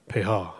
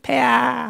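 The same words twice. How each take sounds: First: It is said in a cool, handsome voice. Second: It is said in a sly, wheedling courtier voice.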